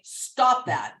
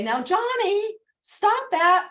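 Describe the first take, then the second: First: "Stop that" falling firmly to the end; firm, final, no question in it; downswing. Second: Upswinging plea. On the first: Parent telling a child to stop, firm downswing. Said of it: "That's a downswing". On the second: Parent to a child named Johnny, mild upswing plea. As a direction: ask the child nicely, ending up. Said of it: "If you say". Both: Shown as a demonstration.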